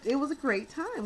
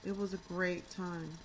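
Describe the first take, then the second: First: It is said with lively enthusiasm. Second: It is said flatly, without enthusiasm.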